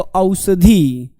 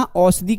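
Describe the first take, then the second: First: औषधि drawn out very slowly, syllable by syllable; spelled-out pronunciation. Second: Said in the usual way. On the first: Shown as a demonstration. Teacher showing students how औषधि is written, drawn-out pronunciation. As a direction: stretch औषधि so each sound shows. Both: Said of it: "औषधि कैसे लिखते हैं".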